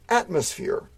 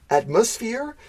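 First: The stress is on the first syllable. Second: The stress is on the second syllable. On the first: "Maybe in the North America, we would say" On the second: "in the UK, we would emphasize the second syllable"

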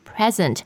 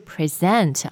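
First: The stress is on the first syllable. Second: The stress is on the second syllable. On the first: It is the noun meaning a gift. The speaker calls it right. "当名词是礼物的时候呢，它的发音是present" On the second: It is the verb meaning to show or give a talk. The speaker calls it wrong. "而不是present 啊，那个是你做一个什么PPT presentation you present"

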